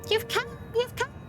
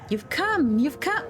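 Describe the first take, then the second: First: It is read in a put-on bird voice. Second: It is read in a plain, normal voice.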